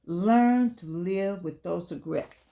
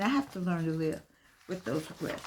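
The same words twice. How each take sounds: First: Slow emphatic reading. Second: Softer and more personal, fading out at the end; a quiet, sincere confession; quiet personal admission. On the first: Shown as a demonstration. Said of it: "It's a part of life". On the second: Real, not acted. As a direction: say it to yourself, letting it trail off. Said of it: "Me, [name]".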